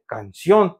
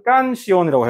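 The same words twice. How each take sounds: First: 깐시온 with the stress on 온; stress on last syllable. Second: 깐시온이라고 with the stress on 깐; stress on second-last syllable. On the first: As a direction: lean on the final 온 of 깐시온. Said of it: "그냥 다 무시해버렸죠". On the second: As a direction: punch 깐 at the start of 깐시온이라고. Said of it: "N으로 끝났으니까". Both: Shown as a demonstration.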